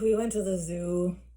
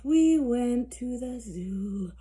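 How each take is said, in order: First: It is said in an annoyed, irritated voice. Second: It is said in a sleepy, drowsy voice. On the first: "In an annoyed voice" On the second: "in a sleepy voice"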